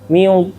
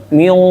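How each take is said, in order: First: The heavy sound is said with pushed-out, rounded lips. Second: The heavy sound is said with pushed-out, rounded lips.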